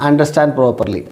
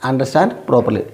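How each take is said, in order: Both takes have the same delivery.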